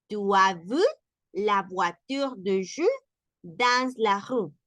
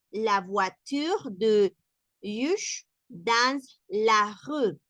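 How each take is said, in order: First: French at a calmer speed; French sentence. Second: Very slow, word by word French; slow French reading. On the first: Teacher repeating the sentence at normal speed. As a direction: read it through at natural pace. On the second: Teacher slowing the example down for learners. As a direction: spell out each word in slow motion. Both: Shown as a demonstration.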